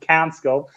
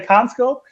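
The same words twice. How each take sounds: First: The name is said with an English pronunciation. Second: The name is said with a German pronunciation. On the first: "Maybe in English you you you, you pronounce it CanScope" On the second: "In Germany, you would say CanScope"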